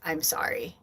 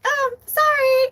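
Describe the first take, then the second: First: Soft, low, heartfelt apology; mean every bit of it, softer; genuine sorry. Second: Very high, tossed-off mock apology; flippant sorry. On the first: Retold or imitated. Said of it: "a very genuine". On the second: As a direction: chirp it like you don't mean it. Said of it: "It's not a flippant".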